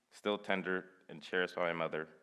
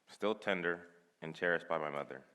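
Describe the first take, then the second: No difference in how they are said.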